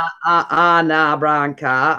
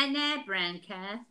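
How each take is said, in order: First: Slow, lower attempt at Cockney; badly faked Cockney. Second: Slow, drawn-out Cockney vowels. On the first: Shown as a demonstration. Friend having a go at Cockney talk, half-failed Cockney accent. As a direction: fumble towards a Cockney accent. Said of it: "I can't do a Cockney accent". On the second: Pretend. Answering the elocution joke in slow Cockney. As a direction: stretch it out in Cockney. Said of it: "that's Cockney talk".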